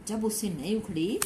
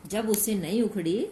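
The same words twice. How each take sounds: The two takes are said the same way.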